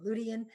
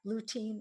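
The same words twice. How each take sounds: First: "lutein" in three syllables, ending "tee-in"; three-syllable pronunciation. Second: Put-on "lutein" in two syllables, ending in a long "teen"; two-syllable pronunciation. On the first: Lecturer offering the other way to say lutein, as LOO-tee-in. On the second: Lecturer showing students one way to say lutein, as LOO-teen. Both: Shown as a demonstration. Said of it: "You can pronounce it either way".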